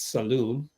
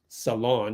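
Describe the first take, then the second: First: The second syllable sounds like 'loon'. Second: The second syllable sounds like 'lon'. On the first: The speaker calls it right. "It's saloon" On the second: The speaker calls it wrong. "pronounced Janelle's name wrong"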